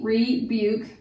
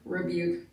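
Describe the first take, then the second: First: The first vowel is a long ee sound. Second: The first vowel is a short weak uh sound. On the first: "long E" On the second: "it can just be rebuke, almost like an I"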